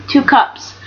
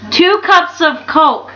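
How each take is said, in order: First: Two hit first, cups falls away; stress on two. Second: Slow, with cups stretched; stress on cups. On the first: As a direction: put the weight on two. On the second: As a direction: lean on cups and draw it out. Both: Shown as a demonstration.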